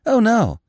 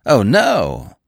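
First: Said in the usual way. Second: "no" drawn out and louder; demonstrative, emphatic "no"; emphasis on "no". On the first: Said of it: "trifle more emphasis on the last word". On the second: A narrator's reading. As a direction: lean hard on the last word, "no". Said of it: "how much better it would have sounded spoken thus".

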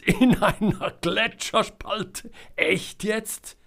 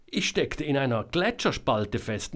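First: Hoch und lachend hervorgeprustet; lachend ungläubig. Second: Said in the usual way. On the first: A narrator's reading. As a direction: vor Lachen kaum glauben können. (Jonas prustet lachend über Selmas Unfall, hoch und ungläubig) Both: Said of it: "Jonas gröhlte und schrie".

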